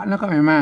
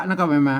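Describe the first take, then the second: Both takes have the same delivery.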